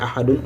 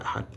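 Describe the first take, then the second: First: Ahadun with the -un heard, rising; full -un ending. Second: Ahad halted on d, softly; stopped ending. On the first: Teacher showing the form being replaced, full -un ending. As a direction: keep the final -un on ahadun. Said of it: "Au lieu de dire ahadun". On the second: Teacher showing the sukun ending, stopped on d. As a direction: finish ahad on d with no vowel after. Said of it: "on va dire ahad". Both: Shown as a demonstration.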